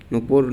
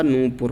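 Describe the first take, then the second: First: नुपुर with a short first u; quick "nu" opening in नुपुर; wrong form. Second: नूपुर with a long first oo; correct form. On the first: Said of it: "नुपुर नहीं होता". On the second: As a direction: stretch the first vowel of नूपुर. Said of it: "नूपुर होता है". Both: Shown as a demonstration.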